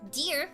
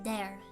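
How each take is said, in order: First: The vowel sounds like the one in 'here'. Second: The vowel sounds like the one in 'hair'.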